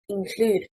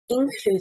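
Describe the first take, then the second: First: The stress is on the second syllable. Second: The stress is on the first syllable. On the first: The speaker calls it right. "stressing on the second syllable" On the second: The speaker calls it wrong. "stressing on the first syllable, is incorrect"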